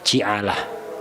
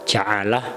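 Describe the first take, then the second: First: The first vowel is an 'i' sound. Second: The first vowel is not an 'i' sound.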